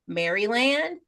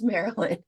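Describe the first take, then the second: First: Each part of the name is pronounced as spelled. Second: The name is pronounced in a shortened, reduced form. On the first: The name is being read off the page. The speaker calls it wrong. "trying to pronounce it from reading it" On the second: This is how people actually say it. The speaker calls it right. "no, it's Maryland"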